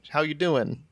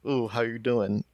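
First: It sounds like a casual, friendly greeting. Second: It sounds worried, like asking if someone's okay.

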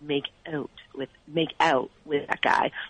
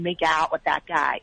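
First: It is said in a Canadian accent. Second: It is said in a flat-voweled American accent. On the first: This is how Canadians say it. "and we would say" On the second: This is how the American friends say it. "If they're saying"

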